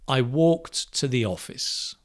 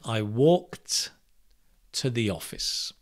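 First: The sentence is said at normal speed. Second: The sentence is said slowly and deliberately.

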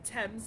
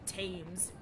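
First: The name is said the British way. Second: The name is said a non-British way. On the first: The speaker calls it right. "I'm pronouncing them properly now, according to British etiquette" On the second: The speaker calls it wrong. "not the Thames"

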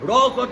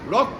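First: The word is drawn out and split apart. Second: The word is said quickly as one unit.

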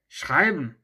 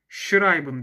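First: It is said with German stress and intonation. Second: It is said flatly, like a Turkish word. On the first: "Mesela şu gördüğünüz kelime schreiben" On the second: "Bu kelime Türkçe bir kelime olsaydı buna muhtemelen schreiben diyecektik"

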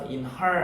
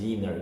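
First: The h is pronounced, keeping two words. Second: The h is dropped, linking into one word. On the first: The speaker calls it wrong. "그래서 in her 아니에요" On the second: The speaker calls it right. "inner로 들린단 말이죠"

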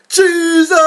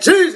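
First: The word is screamed loudly and held long. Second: The word is said briefly and stops.

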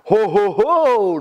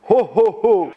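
First: It sounds like Yogi Bear's voice. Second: It sounds like Santa Claus's voice.

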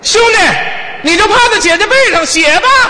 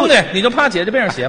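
First: It is said in a raised, higher voice. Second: It is said in a lower, plainer voice.

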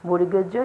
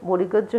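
The two takes are said the same way.

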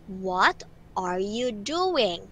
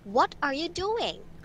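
First: The sentence is spoken slowly. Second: The sentence is spoken fast. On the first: "So now I want you to speak it slowly" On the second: "How about fast?"

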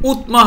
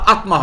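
First: The word starts with a 'u' vowel. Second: The word starts with an 'a' vowel. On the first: "হবে না" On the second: "হবে না"

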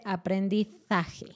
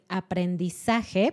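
First: The z is pronounced like th. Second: The z is pronounced like an s. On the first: "ella dice aprendizaje" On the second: "en vez de decir aprendizaje"

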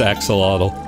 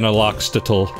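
First: The sounds are in order as axolotl. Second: The sounds are jumbled as aloxtotl. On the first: The speaker calls it right. "I know it's axolotl" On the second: The speaker calls it wrong. "it's funnier to say it wrong"

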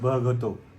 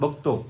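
First: The 'gh' sound is heavy and strongly breathy. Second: The 'gh' sound is light and not strongly breathy. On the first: This is how another family member says it. "जो घचा उच्चार तो घचा उच्चार घेतात" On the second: This is how the family usually says it. "आपण कसं म्हणतो?"

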